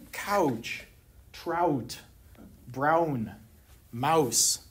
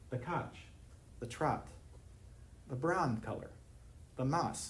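First: Couch, trout, brown, mouse with a full "ow" glide, like "cow-ch", "tr-ow-t"; standard au diphthong. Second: "couch" as "cahch", "trout" as "traht", "brown" as "brahn", "mouse" as "mahs"; Pittsburgh ah monophthong. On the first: Lecturer demonstrates the standard vowel to the audience, gliding ow. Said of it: "an au diphthong". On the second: Lecturer shows the audience the Pittsburgh vowel, flat ah. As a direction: flatten each ow into a long plain ah in couch, trout, brown, mouse. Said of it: "ah monophthong". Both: Shown as a demonstration.

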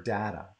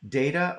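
First: DATA said as DAT-uh; short-A data. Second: DATA said as DAY-tuh; long-A data. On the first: Host offering guest the other pronunciation, DATA as DAT-uh. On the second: Host asking guest which pronunciation, DATA as DAY-tuh. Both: Shown as a demonstration. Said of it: "is it data or data".

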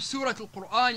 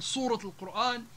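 First: Said in the usual way. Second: صورة with heavy backed s; s made emphatic. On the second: Shown as a demonstration. Teacher showing the shift, صورة with emphatic s. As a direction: say صورة with ص in place of س. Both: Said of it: "والسين تحول إلى الصاد".

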